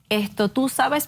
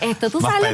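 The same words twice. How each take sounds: First: It is said in her own ordinary voice. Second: It is said imitating another person's tone. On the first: The speaker calls it wrong. "no así" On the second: The speaker calls it right. "un tono más Pedro"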